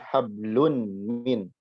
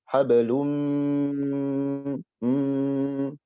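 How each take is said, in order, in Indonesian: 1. Huruf n diucapkan terpisah, tanpa sengau yang ditahan. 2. Huruf n menyatu dengan m menjadi sengau panjang yang ditahan. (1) "Maka kita baca bukan hablun min" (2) "tapi hablum mm, ditahan"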